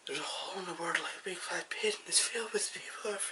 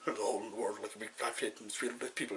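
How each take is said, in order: First: The voice is very soft. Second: The voice is very deep. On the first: "He's really soft" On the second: "I was kind of doing a deep voice"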